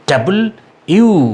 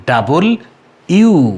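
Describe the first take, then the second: No difference in how they are said.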